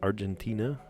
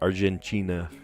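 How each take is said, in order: First: The 'ti' is said with a t sound. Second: The 'ti' is said with a ch sound.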